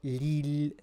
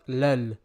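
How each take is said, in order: First: The vowel after the L is 'i'. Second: The vowel after the L is 'a'. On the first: The speaker calls it right. "the castle on the lam, lil" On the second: The speaker calls it wrong. "not lal"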